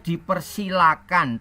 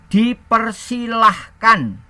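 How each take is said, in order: First: No h sound is heard before the ending. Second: An h sound is heard before the ending. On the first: This is the standard written form. "tidak ada hanya" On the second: This is the everyday spoken form. "ada hanya ya"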